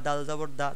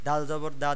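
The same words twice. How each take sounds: Both takes have the same delivery.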